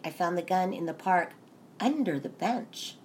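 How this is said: The emphasis falls on the words under the bench. It was strange that it was under the bench. The speaker calls it right. "it was so strange that it was under the bench"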